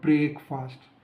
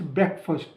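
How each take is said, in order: First: The second syllable keeps a full 'fast' sound. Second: The second syllable is weak and reduced. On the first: The speaker calls it wrong. "Not ब्रेकफास्ट" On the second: The speaker calls it right. "It's ब्रेकफास्ट"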